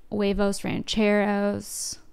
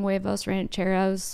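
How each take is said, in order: First: Put-on drawled Valley girl huevos rancheros. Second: Said in the usual way. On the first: Shown as a demonstration. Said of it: "saying huevos rancheros like a Valley girl". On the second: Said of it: "Am I gonna get canceled for saying".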